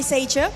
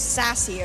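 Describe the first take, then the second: First: The name is said with a 'ch' sound. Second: The name is said with an 's' sound. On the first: The speaker calls it wrong. "Did I pronounce that right?" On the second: The speaker calls it right. "Not Seicha, it's sassy"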